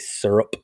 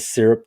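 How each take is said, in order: First: It uses a Californian-style pronunciation. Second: It uses the speaker's own usual pronunciation. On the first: The speaker calls it wrong. "they say syrup" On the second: The speaker calls it right. "instead of syrup"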